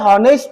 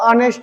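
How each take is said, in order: First: The word begins with an h sound. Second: The word begins with a vowel sound. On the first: The speaker calls it wrong. "हॉनेस्ट नाही वाचणार" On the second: The speaker calls it right. "तर ऑनेस्ट वाचणार"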